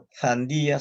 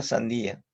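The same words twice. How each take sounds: First: Sandía with a lisped th sound, /θandia/; Spanish z-like sandía. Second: Sandía with a clear s, /sandia/; plain s sandía. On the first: Teacher demonstrating Sandía with a th sound. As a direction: say Sandía with a Castilian th at the start. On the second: Teacher demonstrating sandía with a plain s. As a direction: say sandía with a plain Latin American s. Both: Shown as a demonstration.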